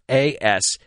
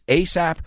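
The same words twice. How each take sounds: First: Each of the four letters is said separately. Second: It is said as a single English word. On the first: "or say every letter" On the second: "in English it's ASAP"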